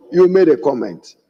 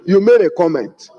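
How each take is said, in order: First: YOU made a comment, leaning on You, pitch dropping; stress on you. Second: You MADE a comment, leaning on made; stress on made. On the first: Stress on You while turning it back on the minority leader. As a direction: point at him by hitting the word You. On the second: Stress on made while correcting the minority leader. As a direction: press hard on the word made. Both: Real, not acted.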